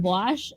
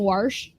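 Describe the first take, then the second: First: The word has a standard general pronunciation. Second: The word has a regional Midwestern pronunciation. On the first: The speaker calls it right. "instead of" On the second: The speaker calls it wrong. "I am guilty of occasionally saying"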